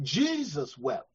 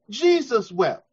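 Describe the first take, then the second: First: Low, soft and slow; quiet, slow reverent reading; hushed. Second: Said in the usual way. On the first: Real, not acted. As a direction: let the verse sink in, barely voiced. Preacher reads the verse quietly.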